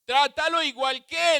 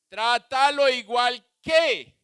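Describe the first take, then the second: First: "Trátalo igual que" higher, as the Lord's instruction; God's command, quoted. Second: "trátalo igual que" slow, loud, each word stressed; slow and loud, every word of "trátalo igual que" stressed; emphatic slow command. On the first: Retold or imitated. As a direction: quote the Lord firmly. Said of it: "le dijo el Señor". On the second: Shown as a demonstration.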